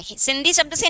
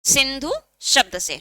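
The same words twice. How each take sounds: First: सिंधी with a final long "ee"; wrong source word. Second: Slow सिंधु with a final "oo"; correct source word. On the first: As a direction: end सिंधी on an "ee" sound, at normal pace. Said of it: "नहीं". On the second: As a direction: draw out सिंधु, ending it in "dhoo". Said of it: "किससे बना है?". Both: Shown as a demonstration.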